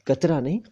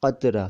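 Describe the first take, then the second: First: कतरा with a plain k; कतरा with a front k; wrong pronunciation. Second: कतरा from the back of the throat; correct pronunciation. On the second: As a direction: say कतरा with the nukta. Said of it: "का के नीचे नुक्ता". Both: Shown as a demonstration.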